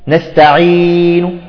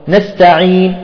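First: The long vowel is held for four counts. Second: The long vowel is held for two counts.

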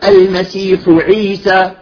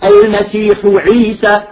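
No difference in how they are said.

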